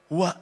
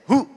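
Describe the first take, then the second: First: The word ends with a full 'wa' syllable. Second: The word ends after 'hu', with no 'wa'. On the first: The speaker calls it wrong. "Huwa, tidak" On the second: The speaker calls it right. "Wa-nya enggak bunyi"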